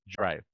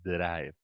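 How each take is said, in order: First: It begins with a J-like sound. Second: It begins with a plain, hard D sound. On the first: The speaker calls it right. "it's going to be pronounced like J" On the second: The speaker calls it wrong. "We don't say drive"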